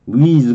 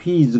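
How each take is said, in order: First: It starts with a plain w, no h sound. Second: It starts with a breathy h before the w. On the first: "H는 잘 발음을 안 하고 wheeze 그렇게 발음해도 되고" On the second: "wheeze 그래도 되는데"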